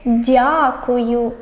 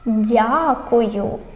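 Both takes have the same delivery.

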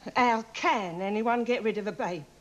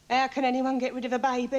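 First: The word 'can' is emphasized. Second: The word 'can' is not emphasized.

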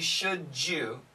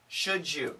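First: The words run together with a 'j' sound. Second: The words are said separately, without a 'j' sound.

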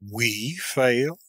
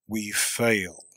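First: It is an outraged question stressing we. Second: It is a deep, low, firm statement. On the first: The speaker is outraged at the idea that they could fail. The speaker calls it wrong. "An accent of indignant astonishment, laying the principal emphasis on the word "we."" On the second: The speaker accepts that if they fail, all is over. The speaker calls it right. "with the simple period, modulating the voice to a deep, low, resolute tone"

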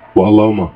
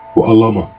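The two takes are said the same way.

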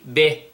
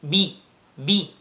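First: The vowel after 'b' is not a clear 'i'. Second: The vowel after 'b' is a clear 'i'. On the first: The speaker calls it wrong. "Don't say be, be, no" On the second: The speaker calls it right. "notice the kasra in the ba. Be, that's the right pronunciation"

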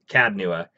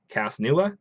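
First: The first part ends with a d sound. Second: The first part ends with an s sound. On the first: The speaker calls it right. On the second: The speaker calls it wrong. "Did I say it right?"

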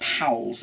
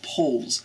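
First: The vowel sounds like 'ow' as in cow. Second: The vowel sounds like 'oh' as in go. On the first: The speaker calls it wrong. "they think it's Powles. It's not Powles" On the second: The speaker calls it right. "it's pronounced Poles"

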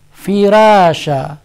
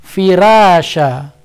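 First: The r is pronounced thin and light. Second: The r is pronounced thin and light.

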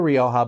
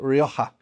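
First: The J is a light, soft sound. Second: The J is a strong, emphasized H sound. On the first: This is the speaker's everyday pronunciation. "I say Rioja" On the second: This is how Spaniards pronounce it. "they usually emphasize that the J is that H sound"

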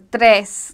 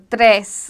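First: The R is rolled. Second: The same.

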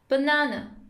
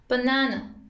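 Both takes have the same delivery.

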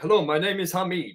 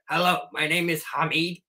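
First: It is said in the telemarketer's voice. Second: It is said in Beavis's voice.

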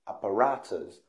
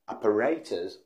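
First: The word is said in an American accent. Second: The word is said in a British accent. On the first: "or Americans, apparatus" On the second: "The right pronunciation is apparatus"

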